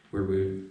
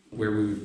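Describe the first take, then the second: No difference in how they are said.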